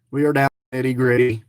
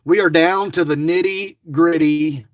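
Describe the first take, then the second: First: "We are down to the nitty gritty" rattled off fast and lower; fast, low repeat of the same line; quick lower repeat. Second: Said in the usual way. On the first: Real, not acted. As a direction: race through it a second time, lower.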